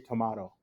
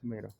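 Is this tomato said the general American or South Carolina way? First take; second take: South Carolina; general American. First: It is said the way heard in South Carolina. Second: It is said the usual general American way. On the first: This is how some people in another region say it. "I did go to South Carolina once, and they say tomato" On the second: This is how most people here say it. "We all say tomato"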